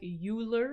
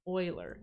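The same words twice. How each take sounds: First: The name is pronounced the way it is spelled. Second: The name is pronounced unlike its spelling. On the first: The speaker calls it wrong. "this looks like Euler, and that's how I pronounced it in high school" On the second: The speaker calls it right. "It is actually pronounced Euler"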